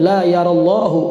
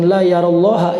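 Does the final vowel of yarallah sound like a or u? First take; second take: u; a. First: The phrase ends with a u vowel. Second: The phrase ends with an a vowel. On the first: The speaker calls it right. "la yarallahu ya" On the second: The speaker calls it wrong. "sebetulnya jangan la yarallaha ini"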